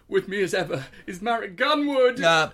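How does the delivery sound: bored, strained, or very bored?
strained. It sounds forced-normal, with hidden tension underneath. "as if I was holding him hostage"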